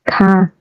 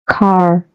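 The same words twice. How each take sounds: First: The final R sound is silent. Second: The final R sound is clearly pronounced. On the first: "British English only pronounces a printed R if the R follows a vowel sound" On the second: "In American English, however, every printed R is pronounced"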